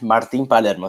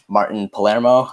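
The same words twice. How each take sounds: First: The name is said with Spanish pronunciation. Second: The name is said with English pronunciation. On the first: "go with the Spanish" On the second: "in English, I would pronounce it"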